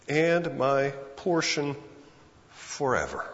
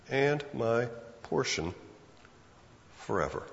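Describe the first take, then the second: First: Slow, falling into a hush on forever; quoted verse. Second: Quiet reflective repeat; repeated softly. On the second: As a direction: savour "And my portion forever" as a hushed echo. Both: Shown as a demonstration.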